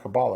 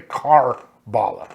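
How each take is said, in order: First: The first syllable has no R sound. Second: The first syllable has an R sound. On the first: The speaker calls it right. "Did I say that right?" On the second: The speaker calls it wrong. "I always want to say Car-Bala"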